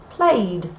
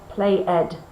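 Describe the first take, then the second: First: The ending joins the word as one syllable. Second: The ending is a separate extra syllable. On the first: The speaker calls it right. "we never make the ed sound" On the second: The speaker calls it wrong. "I never want to hear play ed"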